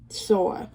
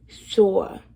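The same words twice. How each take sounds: First: Sore said as "saw" with no r; says w for r. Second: Sore said again louder, trying the r; retry. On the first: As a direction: Sore with the r dropped. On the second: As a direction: Sore pushed out with more force. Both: Shown as a demonstration. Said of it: "I cannot pronounce my R's".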